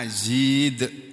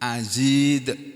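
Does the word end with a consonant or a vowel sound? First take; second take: consonant; consonant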